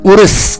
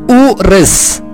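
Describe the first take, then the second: First: The first vowel is said short. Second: The first vowel is said long. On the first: The speaker calls it wrong. "Urıs demiyoruz" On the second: The speaker calls it right. "Urıs biraz daha uzatarak okuyoruz"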